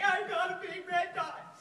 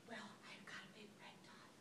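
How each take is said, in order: First: Loud, slow, high dorky announcement; dorky diva. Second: Whispered embarrassed confession; soft spa whisper. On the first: Retold or imitated. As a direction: blurt it out like a goofy diva. Her dorky diva self. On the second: Real, not acted. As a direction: breathe it out, ashamed. Timid confession at spa desk.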